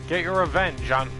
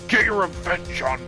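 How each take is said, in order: First: It is read in the speaker's ordinary voice. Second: It is read in a low, demanding put-on voice.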